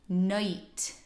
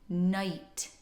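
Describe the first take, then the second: The two takes are said the same way.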